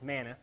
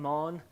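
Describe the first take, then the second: First: It is said as two syllables, like manna. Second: It is said as one syllable, like mon. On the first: "we often refer to it as manna" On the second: "pronounce the word correctly. It would be mon"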